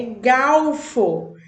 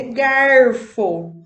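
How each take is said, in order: First: Galfo with an L sound, gawfo, drawn out very slowly; mock correction galfo. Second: Garfo with a strong pulled regional R, said slowly and loud; her R-pulling garfo. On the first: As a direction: imitate someone insisting on galfo, slow. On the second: Retold or imitated. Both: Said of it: "pessoas me chamando minha atenção".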